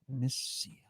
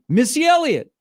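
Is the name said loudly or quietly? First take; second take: quietly; loudly. First: The name is said very quietly and hesitantly. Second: The name is said at full, confident volume. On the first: "you said it really quietly" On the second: "instead of going"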